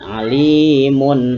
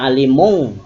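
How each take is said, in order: First: The word ends with a clear n sound. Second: The word ends with an ng sound. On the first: The speaker calls it right. "Tapi ada bunyi n" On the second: The speaker calls it wrong. "Jangan dibaca alimung"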